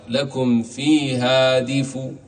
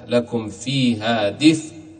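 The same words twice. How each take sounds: First: The final sound carries a faint, partial vowel. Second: The final sound ends silent, lips rounded afterward. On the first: "والروم أن تأتي ببعض الحركة" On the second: "الإشمام ضم الشفتين هكذا"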